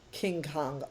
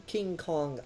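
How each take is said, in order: Both takes have the same delivery.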